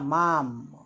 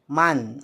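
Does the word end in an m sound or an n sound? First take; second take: m sound; n sound. First: The word ends with a full m sound. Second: The word ends with a light n sound. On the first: The speaker calls it wrong. "मचा उच्चार करायचा नाही" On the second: The speaker calls it right. "मान असा उच्चार करायचा"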